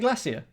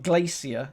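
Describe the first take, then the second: First: The first syllable sounds like 'glass'. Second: The first syllable does not sound like 'glass'. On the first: The speaker calls it right. "that's how we say glacier" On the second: The speaker calls it wrong. "not glacier"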